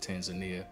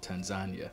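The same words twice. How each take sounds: First: It is pronounced the American way. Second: It is pronounced the local Tanzanian way. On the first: The speaker calls it wrong. "in the States we pronounce it Tanzania" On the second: The speaker calls it right. "but here it's called Tanzania"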